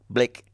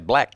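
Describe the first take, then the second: First: The vowel sounds close to the i in bit. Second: The vowel sounds close to the a in bat. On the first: It comes across as a South African accent. The speaker calls it wrong. "sounded like a South African" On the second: This is how Australians actually say it. The speaker calls it right.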